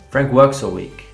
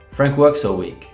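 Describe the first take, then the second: First: The small words are cut short and weak. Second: The small words are cut short and weak.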